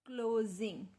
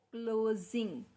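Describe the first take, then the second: No difference in how they are said.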